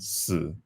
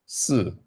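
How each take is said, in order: First: The syllable carries the tone for death. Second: The syllable carries the tone for the number four. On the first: It means death. "with a different intonation is how you would say death" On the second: It means the number four. "is how you would say four"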